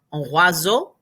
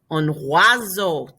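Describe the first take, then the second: First: "un oiseau" with W sound and final O, rising; oiseau repeated. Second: "Un oiseau" slowly, OI as W, EAU as O; tough word, slowly. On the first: Teacher repeating oiseau after explaining sounds. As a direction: say "oiseau" as "wah-zo" again. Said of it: "That O I gives you the W". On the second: Teacher slowly modelling a tough French word. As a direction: say "oiseau" as "wah-zo", slow. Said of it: "This is a tough one to say". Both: Shown as a demonstration.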